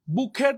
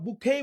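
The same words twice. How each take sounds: First: "বুকেট" with the final t sounded; alternative pronunciation. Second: "বুকেই" ending in an open -khei, no t; accepted pronunciation. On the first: Teacher allowing a variant, "বুকেট" said with its final t. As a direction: say "বুকেট" as bu-khet, closed by a t. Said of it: "বুকেট বলতে পারো". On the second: Teacher offering the other form, "বুকেই" without a t. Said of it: "বুকেই বলতে পারো". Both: Shown as a demonstration.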